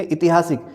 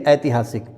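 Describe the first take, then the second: First: ऐतिहासिक begun with short "i"; wrong form. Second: ऐतिहासिक begun with "ai"; correct form. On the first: Teacher shows an error, ऐतिहासिक begun with "i". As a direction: say ऐतिहासिक as i-ti-haa-sik. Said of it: "जो गलत है". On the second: Teacher corrects students, ऐतिहासिक begun with "ai". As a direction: say ऐतिहासिक as ai-ti-haa-sik. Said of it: "सही है". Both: Shown as a demonstration.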